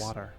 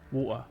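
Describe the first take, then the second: First: It is said in an American accent. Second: It is said in a Cockney-like accent.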